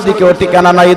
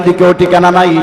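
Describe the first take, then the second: No difference in how they are said.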